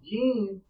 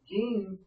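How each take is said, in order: First: The name is said at a louder volume. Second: The name is said at a softer volume.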